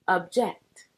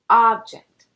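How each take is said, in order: First: The first vowel is a short uh sound. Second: The first vowel is an open ah sound. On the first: "uses the o sound more like a lowercase u, uh" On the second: "The first pronunciation uses the lowercase o sound, ah"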